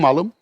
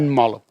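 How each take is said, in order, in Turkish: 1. Vurgu son hecededir. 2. Vurgu ilk hecededir. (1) "Malım demenin iki vurgusu vardır demiştim değil mi? Bir, benim malım" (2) "bir de ben malım"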